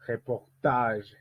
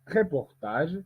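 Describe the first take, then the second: First: "Reportage" drawn out slowly with weight on "tage"; final-syllable stress. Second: "reportage" with the stress early, before "tage"; wrong-syllable stress. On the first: Teacher giving the correct take, stress ending "Reportage". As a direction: stretch the last syllable of "Reportage", falling. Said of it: "On dit". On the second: Teacher showing what not to say, early stress on "reportage". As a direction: punch the start of "reportage". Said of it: "on ne dit pas". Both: Shown as a demonstration.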